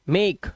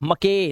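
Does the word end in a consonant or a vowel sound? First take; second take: consonant; vowel. First: The word ends in a consonant sound. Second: The word ends with an extra vowel sound. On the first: The speaker calls it right. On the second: The speaker calls it wrong.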